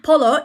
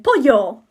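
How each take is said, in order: First: Polo mit hartem l, PO-lo; wrong polo. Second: Pollo mit ll wie j, PO-jo; Spanish pollo. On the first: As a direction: polo wie Eis sagen. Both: Shown as a demonstration. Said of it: "Not polo".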